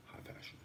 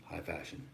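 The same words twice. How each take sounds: First: Very soft, voiceless whisper. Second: Said in the usual way. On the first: Real, not acted. Streamer echoing own phrase to the viewers, whispered. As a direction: whisper it, barely audible.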